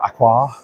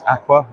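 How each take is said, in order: First: "Aqua" ending in an open ah; second pronunciation. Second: "Aqua" ending in a weak uh; first pronunciation. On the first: Vlogger listing disputed brand pronunciations, "Aqua" said AK-wah. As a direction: say "Aqua" as AK-wah, full final vowel. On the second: Vlogger listing disputed brand pronunciations, "Aqua" said AK-wuh. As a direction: say "Aqua" as AK-wuh, short final vowel. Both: Shown as a demonstration. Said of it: "debate over whether it's Aqua or".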